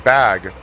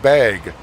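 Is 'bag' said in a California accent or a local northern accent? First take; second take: California; northern. First: It is said in a California accent. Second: It is said like the start of 'bagel'.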